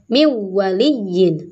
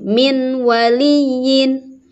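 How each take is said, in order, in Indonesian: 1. Bunyi n dihilangkan tanpa dengung sengau. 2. Bunyi n dilafalkan dengan jelas. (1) "Juga tidak boleh" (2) "Tidak boleh"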